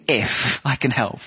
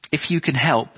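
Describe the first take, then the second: First: I leaned on in if I can help; incredulous retort, hitting I; stress on I. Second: Said in the usual way. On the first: Retold or imitated. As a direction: push the word I, as an echo of his doubt. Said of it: "Jesus calls him up on it". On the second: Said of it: "the man says".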